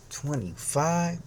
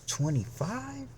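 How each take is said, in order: First: Higher, slow, stretched question; disbelieving question. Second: Much higher, slow, amazed question; delighted disbelief. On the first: Disbelieving echo of cashier's guess. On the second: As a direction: squeal it out in amazement. Bigger disbelieving echo. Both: Retold or imitated.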